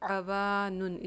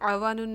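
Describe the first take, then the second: First: The vowel after w is long. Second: The vowel after w is short. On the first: The speaker calls it right. "आवानुन इसकी सही अदायगी है" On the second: The speaker calls it wrong. "इसको हम आवानुन नहीं पढ़ सकते"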